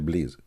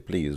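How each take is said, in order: First: It is said with an Arabic accent. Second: It is said with plain English pronunciation. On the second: "we don't say please"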